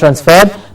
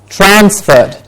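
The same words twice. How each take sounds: First: The stress is on the second syllable. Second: The stress is on the first syllable. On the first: The speaker calls it wrong. "not transferred" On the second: The speaker calls it right.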